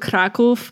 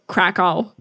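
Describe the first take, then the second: First: The name is said with a Polish pronunciation. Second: The name is said with an American English pronunciation.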